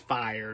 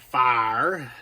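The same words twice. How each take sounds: First: It is said in a northern, New York-ish accent. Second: It is said in a North Carolina Southern accent.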